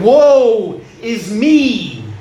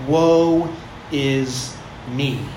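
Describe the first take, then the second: First: It is cried out in desperation. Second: It is said calmly, without force.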